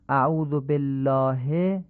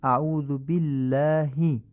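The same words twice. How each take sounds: First: بالله ending in a Persian "e", "bellahe"; Persian-style reading. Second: بالله with short i sounds, "billahi"; crisp Arabic i closing بالله; Arabic kasra. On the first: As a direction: slowly say بالله as "bel-laa-he", Persian vowels. Teacher shows Persian-style reading first. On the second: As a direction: slowly say بالله as "bil-laa-hi". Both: Shown as a demonstration.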